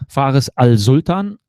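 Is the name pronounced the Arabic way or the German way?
German. The name is pronounced the German way. "This is like the Germans"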